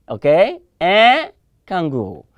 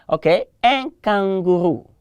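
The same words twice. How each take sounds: The two takes are said the same way.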